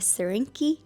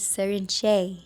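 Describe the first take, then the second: First: The last syllable starts with a k sound. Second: The last syllable starts with a ch sound. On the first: The speaker calls it wrong. "I was calling it Serinki and I kept getting corrected" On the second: The speaker calls it right. "no, it is Serinche"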